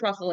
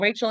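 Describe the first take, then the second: First: The name is said with a Hebrew pronunciation. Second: The name is said with an English pronunciation. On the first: "in Hebrew" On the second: "in English"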